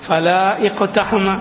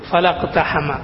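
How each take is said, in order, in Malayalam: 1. രണ്ടു വാക്കുകളും വേറെ വേറെയായാണ് പറയുന്നത്, കൂട്ടിച്ചേർക്കുന്നില്ല. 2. രണ്ടു വാക്കുകളും കൂട്ടിച്ചേർന്ന് ഒറ്റ ഒഴുക്കായാണ് പറയുന്നത്. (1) "ഫല ഇഖ്തഹമ എന്നാണ്" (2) "അത് കൂട്ടി ഓതുമ്പോ"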